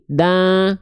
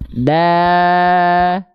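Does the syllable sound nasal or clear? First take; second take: nasal; clear. First: The syllable is said through the nose. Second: The syllable is said without nasal sound. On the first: The speaker calls it wrong. "Kalau masuk hidung begini" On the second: The speaker calls it right. "tidak masuk hidung"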